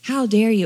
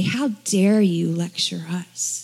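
First: Said in the usual way. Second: Indignant whisper. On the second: Retold or imitated. Pharisees indignant at the man.

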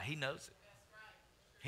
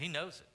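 First: Slow, soft, drawn-out he knows it; hushed repeat. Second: Said in the usual way. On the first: Real, not acted. Pastor reminding church God knows, slow hushed emphasis. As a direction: drop to a near hush, lingering. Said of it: "repeats softly vs loud". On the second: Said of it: "repeat at normal level".

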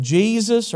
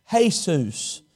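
First: Jesus said as GEE-zus, English J; English pronunciation. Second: Jesus said hay-SOOS, J as H; Jesus with an H sound, stress the end; Spanish pronunciation. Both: Retold or imitated. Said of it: "The J's have an H sound".

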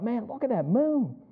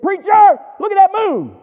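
First: Higher, softened marveling thought; quiet wonder. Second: High, loud excited holler; excited shout. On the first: His own awed thought retold. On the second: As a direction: call out in amazement at full voice. Retold excited calling out. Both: Retold or imitated.

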